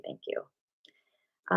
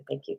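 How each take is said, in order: First: A breathy, unvoiced thank you; whispered thanks. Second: Said in the usual way. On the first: Real, not acted. Grateful host whispering thanks to a super chat donor, hushed. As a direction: say it again as a soft whisper.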